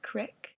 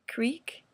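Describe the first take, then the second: First: The vowel is a short 'i' sound. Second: The vowel is a long 'ee' sound.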